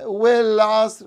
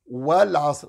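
First: والعصر with the a pulled toward e, wel-as; والعصر gelezen als welas, a te veel richting e; wrong reading with imala. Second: والعصر with a clear open a, wal-asr; correct open wa. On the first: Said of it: "don't read it with the imala". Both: Shown as a demonstration.

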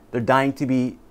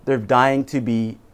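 The two takes are said the same way.

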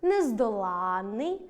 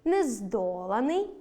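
First: Нездоланний with stress on ЛАН, long double н; stress on the suffix. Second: Нездоланий with stress on ДО, single н; slow нездоланий, stretching ДО; stress on the root. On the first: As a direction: slowly stretch нездолАННий. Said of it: "дві літери". (наголос на суфіксі: нездолАнний) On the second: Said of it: "одна літера". (наголос на корені: нездОланий) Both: Shown as a demonstration.

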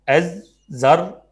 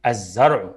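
First: الزرع read slowly as ezzer, split, rising. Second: Said in the usual way. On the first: Shown as a demonstration. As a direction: sound out الزرع in slow pieces. (قراءة مقطعية بطيئة) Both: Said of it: "يلا ننطق كده".

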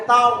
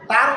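First: "তাও" gliding into an o sound, no r; correct ending. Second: TAR ending on an r, "তার"; wrong ending. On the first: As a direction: close "তাও" on an ao glide. ("তাও", র ছাড়া শেষে ও) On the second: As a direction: say "তার" with a closing r sound. ("তার", শেষে র উচ্চারণ) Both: Shown as a demonstration. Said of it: "না হয়ে হবে তাও".

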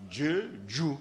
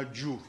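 First: "Dieu, Dieu" read twice, the wrong doubled way; wrong reading "Dieu, Dieu" with a rise. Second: "Dieu" said only once, the correct way; single reading. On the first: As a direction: say "Dieu" two times over. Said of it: "Or, je ne lis pas Dieu". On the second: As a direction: read "Dieu" just once. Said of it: "Je lis simplement Dieu". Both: Shown as a demonstration.

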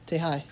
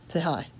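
Both takes have the same delivery.

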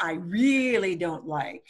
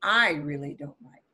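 First: "really" stretched as the strong word; stress on REALLY. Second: "I" punched hard, the rest falling away; stress on I. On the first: Teacher demonstrating English emphasis, "really" stressed. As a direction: lean on "really", leaving "I" unstressed. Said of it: "We do it with the word really". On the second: Teacher demonstrating voice inflection, "I" stressed. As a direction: punch the word "I", then let "really don't like" drop low. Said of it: "we punch the word I". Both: Shown as a demonstration.

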